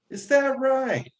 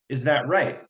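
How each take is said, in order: First: It has the grandmother's Japanese-sounding tune. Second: It is said with a plain English tune.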